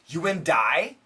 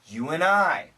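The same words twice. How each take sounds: First: The D at the end of 'and' is pronounced. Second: The D at the end of 'and' is dropped. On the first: The speaker calls it wrong. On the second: The speaker calls it right. "we say you and I. The N cancels the D"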